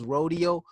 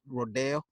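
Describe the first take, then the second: First: It is said like the ordinary word rodeo. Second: It is said the California way. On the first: It names the cowboy contest. "Rodeo is spelled the same way as rodeo" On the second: It names the Beverly Hills street. "if you're in California, you pronounce it Rodeo"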